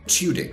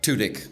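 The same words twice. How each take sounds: First: The U has a y-glide before it. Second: The U has no y-glide before it. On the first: "The liquid U is the appropriate" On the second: "but Tudyk is also appropriate"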